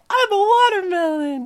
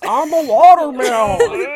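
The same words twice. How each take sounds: First: It is said in a cute little voice. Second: It is said in a full, manly voice.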